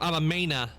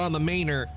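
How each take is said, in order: First: The final r sound is dropped. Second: The final r sound is pronounced. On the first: "That's how they would do it" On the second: "normally how people would go like er"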